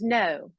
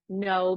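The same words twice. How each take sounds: First: It is said in a standard British accent. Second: It is said in a general American accent.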